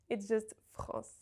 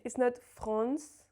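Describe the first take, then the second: First: France with a nasal vowel and no N, said softly; right version: France ending in a pure nasal vowel; correct nasal France. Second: France said with a clearly sounded N, slowly; wrong version: France with the N pronounced; wrong nasal France. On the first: Teacher modelling correct French, France with silent N. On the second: Teacher showing the mistake, France with the N sounded. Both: Shown as a demonstration.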